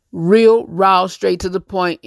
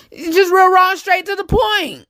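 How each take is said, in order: First: Said in the usual way. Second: Catchphrase pitched much higher; high emphatic catchphrase. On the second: Real, not acted. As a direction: sing the slogan out up high.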